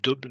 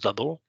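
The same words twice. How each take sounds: First: The word is pronounced with French sounds. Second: The word is pronounced with English sounds. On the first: "comme double" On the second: "mais en anglais, on on prononce double"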